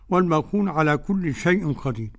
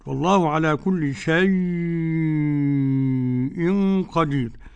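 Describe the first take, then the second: First: The vowel in 'shay' is kept short. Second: The vowel in 'shay' is drawn out long. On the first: "بدون مد كده" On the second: "أربع حركات أو ست حركات"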